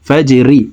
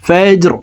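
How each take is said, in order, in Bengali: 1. শব্দটি একটি হ্রস্ব 'i' স্বরধ্বনি দিয়ে শেষ হয়েছে। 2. শব্দটি একটি সাকিন 'r' ব্যঞ্জন দিয়ে শেষ হয়েছে।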